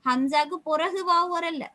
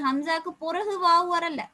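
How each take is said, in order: No difference in how they are said.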